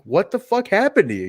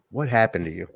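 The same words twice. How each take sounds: First: Higher, pointed question; emphatic retelling. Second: Soft, lower quoted question; quiet, heartfelt question. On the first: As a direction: lean into the disbelief. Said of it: "you just feel the character of that moment". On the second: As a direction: ask it gently into a silent arena. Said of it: "just quiet arena". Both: Retold or imitated.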